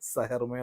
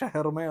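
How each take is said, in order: First: The word begins with an 's' sound. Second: The word begins with an 'sh' sound. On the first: The speaker cannot pronounce the 'sh' sound. The speaker calls it wrong. "പുള്ളി അതിന് പകരം സായാണ് പറയുന്നത്" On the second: This is the standard pronunciation. The speaker calls it right. "ഷ എന്ന് പറയുന്ന അക്ഷരം"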